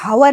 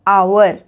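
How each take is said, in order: First: The word starts with an audible h sound. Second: The word starts directly with a vowel sound. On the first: The speaker calls it wrong. "हम इसको हावर नहीं बोलते है ना" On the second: The speaker calls it right. "ये है आवर"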